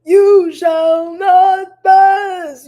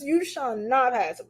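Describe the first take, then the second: First: High, loud, very slow booming wizard line; Gandalf impression. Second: Lighter Gandalf echo. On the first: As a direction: boom it out like Gandalf blocking the bridge. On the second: Retold or imitated. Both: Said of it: "And like Gandalf".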